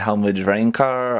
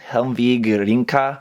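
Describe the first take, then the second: First: The last word is said as a German-style 'Reinkar'. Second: The last word is said as a Japanese-style 'Rinka'. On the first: It follows a German reading of the name. "some people might call it ... I guess that's German" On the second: It follows the Japanese reading of the name. "I'm just reading the Japanese name for that"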